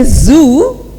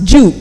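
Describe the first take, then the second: First: The word begins with a buzzing z sound. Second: The word begins with a j sound. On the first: "If I say zoo"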